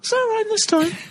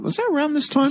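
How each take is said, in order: First: It is said at a higher pitch. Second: It is said at a normal pitch.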